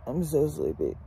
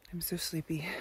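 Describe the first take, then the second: First: Drowsy, lower and slurred; heavy-lidded mumble; sleepy. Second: Heavy with sleep; sleepy. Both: Real, not acted.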